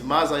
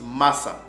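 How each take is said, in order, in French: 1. La consonne du milieu est un son z voisé. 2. La consonne du milieu est un son s sourd. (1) "certains mbala qui disent maza" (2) "avec le son S"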